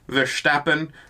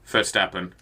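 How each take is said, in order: First: The name begins with a V sound. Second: The name begins with an F sound. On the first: The speaker calls it wrong. "I'm aware it is not Verstappen" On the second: The speaker calls it right. "It's like with an F, not a V"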